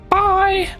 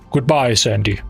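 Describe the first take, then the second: First: It is said in a high-pitched voice. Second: It is said in a deep, manly voice.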